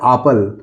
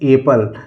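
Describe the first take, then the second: First: The first vowel is a long 'ah' sound. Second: The first vowel is an 'eh' sound. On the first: The speaker calls it wrong. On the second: The speaker calls it right.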